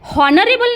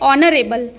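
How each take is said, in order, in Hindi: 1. यह शब्द सुनाई देने वाली h ध्वनि से शुरू होता है। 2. यह शब्द सीधे स्वर ध्वनि से शुरू होता है। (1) "हॉनरेबल नहीं बोलेंगे दोस्तों, यहाँ पर ये बोलना गलत होगा" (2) "यहाँ पे बोलेंगे ऑनरेबल"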